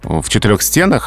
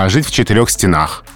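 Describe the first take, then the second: First: The stress in 'стенах' falls on the first syllable. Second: The stress in 'стенах' falls on the last syllable. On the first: The speaker calls it wrong. "в этом устойчивом выражении сказать просто нельзя" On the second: The speaker calls it right. "в устойчивых выражениях это вообще единственный возможный вариант"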